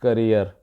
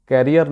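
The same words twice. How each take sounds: First: करियर with a short first vowel, stress on the second syllable; correct pronunciation. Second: कैरियर with an open 'kai' first syllable; local mispronunciation. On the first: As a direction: say करियर as kuh-REER. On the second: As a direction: say कैरियर as KAR-ri-yer, full first vowel. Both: Shown as a demonstration. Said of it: "कैरियर नहीं".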